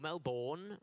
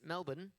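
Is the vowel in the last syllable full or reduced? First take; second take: full; reduced. First: The last syllable has a full, unshortened vowel. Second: The last syllable has a short, reduced vowel.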